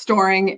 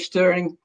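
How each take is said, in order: First: The vowel sounds like the one in 'store'. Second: The vowel sounds like the one in 'stir'. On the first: This is the preferred pronunciation. "like you're storing nuts for the winter" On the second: This is how people say it in Europe. "in Europe, they say stirring"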